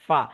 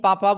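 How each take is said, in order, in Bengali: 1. শব্দাংশটি 'f' ধ্বনি দিয়ে শুরু হয়। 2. শব্দাংশটি 'p' ধ্বনি দিয়ে শুরু হয়। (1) "সঠিক উচ্চারণ জানেন, ফাইয়ের উচ্চারণ কিভাবে করতে হয়" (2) "অনেকে কাই পাপা বলে ফেলে"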